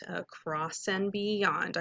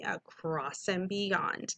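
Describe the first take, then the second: First: Across and beyond said slowly and softer; teacher leading the class in unison; slow choral model. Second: Across and beyond repeated slowly and softer; teacher saying it together with students; slow choral echo. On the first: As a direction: say it slowly so the class can echo. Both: Shown as a demonstration. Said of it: "do that with me".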